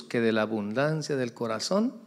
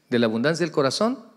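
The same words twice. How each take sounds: First: Said in the usual way. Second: Stressed repetition with "corazón" rising; emphatic repeat. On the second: Shown as a demonstration. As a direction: repeat "de la abundancia del corazón" with force. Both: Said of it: "repeated quote".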